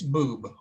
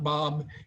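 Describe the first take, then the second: First: The vowel is a long 'oo' sound. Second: The vowel is an open 'o' sound. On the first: The speaker calls it right. "it's Boob" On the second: The speaker calls it wrong. "actual pronunciation is not Bob"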